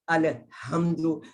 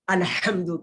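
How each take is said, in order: First: The h is a plain breathy sound. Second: The h is a tight throaty sound. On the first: The speaker calls it wrong. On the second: The speaker calls it right.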